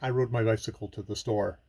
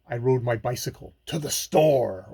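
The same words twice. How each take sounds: First: It is said in a flat, boring way. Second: It is said in a lively, emphatic way.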